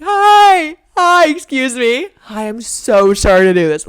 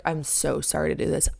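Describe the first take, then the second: First: High, loud, sugary apologetic voice; butter up a stranger with a squeaky polite plea; overly polite stranger voice. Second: Said in the usual way. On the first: Retold or imitated. Asking the neighbour for help, high loud sweet politeness. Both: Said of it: "Literally talking like that".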